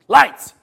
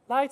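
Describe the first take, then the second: First: It is said sharply and impatiently. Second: It is said gently and sweetly. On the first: The speaker is being scolded. The speaker calls it wrong. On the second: The speaker is reminded kindly. The speaker calls it right.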